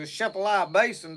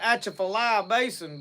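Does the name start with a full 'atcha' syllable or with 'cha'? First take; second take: cha; atcha. First: The name starts directly with 'cha', no opening syllable. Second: The name starts with a full 'atcha' syllable. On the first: This is the local way to say it. "the chefalai is the way that's pronounced" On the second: This is how people on television say it. "they'll call it the atchafalai basin"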